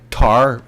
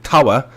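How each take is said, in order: First: TOWER flattened to one syllable, "tar"; local "tar". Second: TOWER in two syllables, "tawa", no R; British "tawa". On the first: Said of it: "I can only say tar". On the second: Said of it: "tawa Britishly". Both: Shown as a demonstration.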